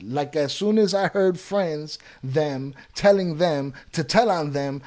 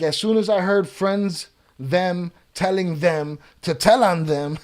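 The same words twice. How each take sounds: First: Slower, chopped-up reading with FRIENDS and THEM set apart; careful second try at a garbled sentence; deliberate re-reading. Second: Said in the usual way. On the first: Real, not acted. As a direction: read it out slowly, piece by piece. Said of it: "Let's try that again".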